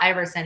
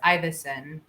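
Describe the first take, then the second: First: The name is said with an R sound. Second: The name is said without any R sound. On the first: The speaker calls it wrong. "it's not Iverson either" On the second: The speaker calls it right. "There's no R"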